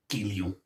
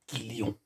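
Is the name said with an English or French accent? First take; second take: French; French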